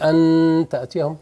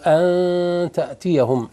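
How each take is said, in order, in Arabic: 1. النون تُنطق كاملة، واللسان ملامس للأسنان. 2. النون مخفاة، واللسان بعيد عن الأسنان. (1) "ما تقولش أن تأتيهم" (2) "إخفاء، ما تخش لسانك يضرب في الأسنان"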